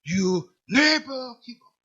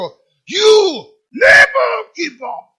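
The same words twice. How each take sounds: First: It is said in a somewhat louder voice. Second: It is shouted in a very booming voice.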